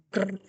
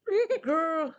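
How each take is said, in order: First: Wolf growling. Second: Higher playful mock growl; dog growling. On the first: Acted. Wolf tugging the shoe from the dog, mock growl. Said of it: "said Wolf". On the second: Dog tugging the other end of the shoe, higher mock growl. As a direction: growl back like a scrappy little dog. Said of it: "said dog".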